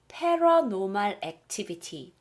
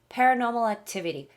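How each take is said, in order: First: It is said with a Korean-style pronunciation. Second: It is said with a native English pronunciation.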